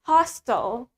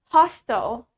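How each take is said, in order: First: It is said in an American accent. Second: It is said in an American accent.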